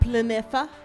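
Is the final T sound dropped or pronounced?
dropped. It has a French sound without the final T.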